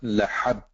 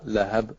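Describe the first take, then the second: First: The h is a heavy, throaty sound. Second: The h is a light, breathy sound. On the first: The speaker calls it wrong. "It's not lahab" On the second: The speaker calls it right. "it is the small ha"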